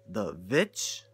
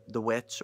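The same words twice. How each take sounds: First: The Vitch, a V sound instead of W, lower and questioning. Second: Said in the usual way. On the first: Shown as a demonstration. Mocking the film's title spelling to viewers, V for W. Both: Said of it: "V V I C H?".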